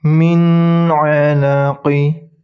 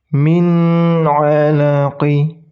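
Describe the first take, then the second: Both takes have the same delivery.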